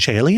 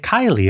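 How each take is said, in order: First: The word begins with a CH sound. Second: The word begins with a hard K sound. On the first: This is the ecclesiastical pronunciation. "do you mean Chailey?" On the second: This is the classical pronunciation. "I would just say Kylie"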